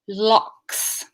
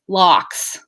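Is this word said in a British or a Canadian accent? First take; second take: British; Canadian. First: Said in a British accent with a long L. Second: Said in a Canadian accent with a short L. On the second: "it's like Canadian"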